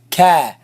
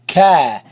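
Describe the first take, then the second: First: The vowel is light and open, sounding forward. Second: The same.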